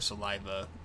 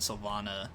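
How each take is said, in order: First: The word sounds like sa-LIE-va. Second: The word sounds like sil-VAH-na. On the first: The speaker calls it wrong. "It looks like saliva" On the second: The speaker calls it right. "I think it's pronounced Sylvana"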